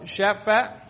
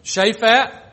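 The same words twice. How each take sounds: First: Shaphat said SHAH-faht; first try at a name. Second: Shaphat said SHAY-fat, long a first; retry Shaphat with a long first vowel; corrected name. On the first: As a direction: try Shaphat with a short a in both syllables. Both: Shown as a demonstration. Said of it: "Is that right?".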